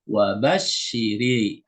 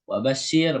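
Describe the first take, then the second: First: The word ends with an added i vowel. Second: The word ends on a bare r sound. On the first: "ro-nya dikasih harokat kepada kasroh" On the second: "Sukun yang pertama ada pada huruf ro"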